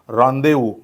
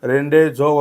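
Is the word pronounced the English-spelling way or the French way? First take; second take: French; English-spelling. First: It is read with French pronunciation. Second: It is read by English spelling rules. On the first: The speaker calls it right. "याचा correct उच्चार आहे रॉन्देवू" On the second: The speaker calls it wrong. "याचा उच्चार रेंडे झो वगैरे असा काही होत नाही"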